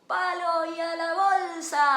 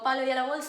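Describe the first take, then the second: First: It is shouted loudly, with energy. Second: It is said quietly, without energy.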